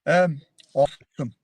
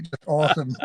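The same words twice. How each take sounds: First: Drawn-out American "awesome"; American accent. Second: American "awesome", falling; a plain American "awesome"; American accent. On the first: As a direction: say it like an American, stretched out. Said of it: "how about an American accent for us". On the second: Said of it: "I saw you guys saying it". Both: Pretend.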